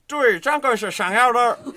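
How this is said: It is said with a Beijing accent. "북경 발음은"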